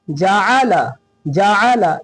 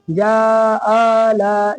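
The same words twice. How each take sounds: First: "जाला" in three short, even beats, falling; quick equal syllables. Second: "जाला" with every vowel stretched slowly; wrongly dragged vowels. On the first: Teacher modelling the correct reading, short even "जाला". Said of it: "जल्दी पढ़ेंगे". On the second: Teacher showing students the mistake, slowly stretched "जाला". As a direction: drag each syllable of "जाला" out too long. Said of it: "खींचेंगे नहीं". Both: Shown as a demonstration.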